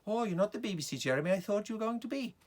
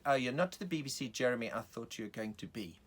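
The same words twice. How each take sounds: First: High, lilting Welsh lady; Welsh accent. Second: South African woman in the audience; lady with a South African accent. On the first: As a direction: put on a sing-song Welsh accent, pitched up. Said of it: "So I made her Welsh". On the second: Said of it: "a woman with a South African accent". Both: Acted.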